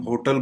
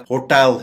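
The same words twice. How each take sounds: First: "होटल" said HO-tul, schwa ending; common mispronunciation. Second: "होटल" said ho-TEL, open e; correct pronunciation. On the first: Teacher quoting what we say, "होटल" as HO-tul. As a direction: reduce the second vowel of "होटल" to HO-tul. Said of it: "जिसको हम होटल बोलते हैं". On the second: Teacher giving the correct form, "होटल" as ho-TEL. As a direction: land "होटल" on a clear TEL. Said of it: "इसकी correct pronunciation". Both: Shown as a demonstration.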